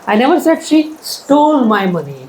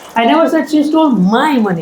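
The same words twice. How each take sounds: First: The word stole carries the main stress. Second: The word my carries the main stress. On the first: It was taken, not stolen. "She just took it without asking me" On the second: It belonged to someone else. "It was somebody's money"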